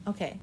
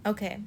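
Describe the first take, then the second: No difference in how they are said.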